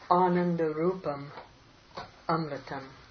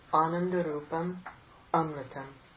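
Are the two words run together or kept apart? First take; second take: kept apart; kept apart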